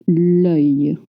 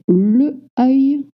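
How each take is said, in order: First: The article is joined to the noun without a vowel. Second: The article is a separate syllable before the noun. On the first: The speaker calls it right. "we say l'œil" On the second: The speaker calls it wrong. "we don't say le œil"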